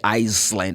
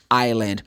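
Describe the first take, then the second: First: The word is said with an audible S sound. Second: The word is said with no S sound. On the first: The speaker calls it wrong. "You don't pronounce the letter S. You don't say Iceland" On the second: The speaker calls it right. "It's island"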